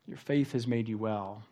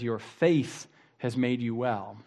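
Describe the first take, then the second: First: Much softer, letting the line sink in; soft reflective repeat. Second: Said in the usual way. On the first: Acted. Preacher repeats Jesus's words to the congregation, softly. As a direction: say it again quietly, to let it land.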